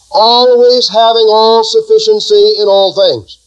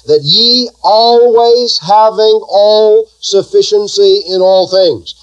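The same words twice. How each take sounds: First: Said in the usual way. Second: Drawn out slowly, leaning on always; slow emphasis. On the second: Shown as a demonstration. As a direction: spell it out slowly for the church. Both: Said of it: "Now watch that".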